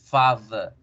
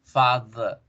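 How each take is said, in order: Both takes have the same delivery.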